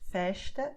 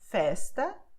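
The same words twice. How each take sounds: First: The consonant before the t sounds like sh. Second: The consonant before the t sounds like s. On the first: This is how people in Rio de Janeiro say it. "someone from Rio de Janeiro would make sh" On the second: This is how people in São Paulo say it. "in São Paulo, uh, well, I would say"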